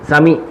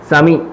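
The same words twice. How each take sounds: No difference in how they are said.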